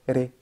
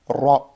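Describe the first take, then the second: First: The r is plain and light, vowel fronted. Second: The r is emphatic and heavy, vowel backed. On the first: The speaker calls it wrong. "j'ai pas dit ré" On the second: The speaker calls it right. "j'ai dit ra, ra, c'est lourd"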